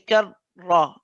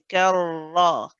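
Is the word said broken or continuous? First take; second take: broken; continuous. First: The voice stops briefly between the two syllables. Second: The voice runs on without stopping between syllables. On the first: The speaker calls it wrong. "you don't want to stop the sound of the voice. You don't want to say kar ra" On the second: The speaker calls it right. "You want to say karra"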